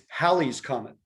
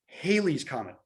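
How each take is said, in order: First: The first syllable rhymes with 'Sally'. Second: The first syllable rhymes with 'daily'. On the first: The speaker calls it right. "It's Halley's Comet" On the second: The speaker calls it wrong. "said Halley's Comet because he didn't actually know what it was"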